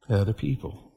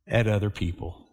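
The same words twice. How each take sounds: First: Softer echo. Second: Quiet. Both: Real, not acted.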